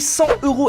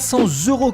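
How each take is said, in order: First: Cent joins euros with no z sound. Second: A z sound links cent to euros. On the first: The speaker calls it right. "a bien dit cent euros" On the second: The speaker calls it wrong. "et non pas cent euros comme vous êtes nombreux à le dire"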